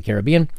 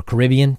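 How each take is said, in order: First: "Caribbean" as care-uh-BEE-un; stress on third syllable. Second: "Caribbean" as kuh-RIB-ee-un; stress on second syllable. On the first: YouTuber reading a franchise title, "Caribbean" stressed care-uh-BEE-un. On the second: YouTuber offering another pronunciation, "Caribbean" stressed kuh-RIB-ee-un. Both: Shown as a demonstration. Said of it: "depending on how you want to pronounce it".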